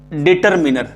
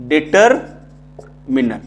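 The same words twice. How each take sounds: First: Said in the usual way. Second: determiner drawn out in two parts with a long gap; slow, broken-up word. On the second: Shown as a demonstration. Teacher dictating a grammar term to pupils, slowly broken up. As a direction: split determiner after deter, very slowly.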